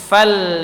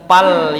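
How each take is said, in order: First: The word begins with an f sound. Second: The word begins with a p sound. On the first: The speaker calls it right. "tapi fal" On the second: The speaker calls it wrong. "bukan pal"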